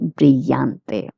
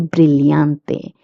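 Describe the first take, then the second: First: The double L sounds like 'y'. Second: The double L sounds like 'ly'. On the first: "A person from Latin America can say" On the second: "I generally like to use the Spain's accent, so I will pronounce the two L's as lia"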